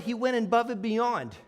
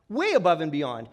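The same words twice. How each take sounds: First: Said in the usual way. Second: Way punched and dropped low; stress on Way. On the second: Shown as a demonstration. Speaker praising the driver, stress on Way. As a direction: lean hard on the word Way.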